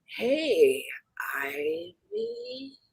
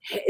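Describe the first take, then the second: First: High, soft ghostly whisper; creepy whisper. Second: Said in the usual way. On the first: Retold or imitated. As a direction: whisper the name like a female ghost. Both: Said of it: "no, it said".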